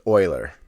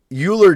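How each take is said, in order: First: Euler rhyming with "boiler"; correct Euler pronunciation. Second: Euler with an opening "you" sound; mispronounced Euler. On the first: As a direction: say Euler as "OY-ler". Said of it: "is pronounced Euler". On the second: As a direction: say Euler wrongly as "YOO-ler". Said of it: "I'm gonna pronounce it wrong". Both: Shown as a demonstration.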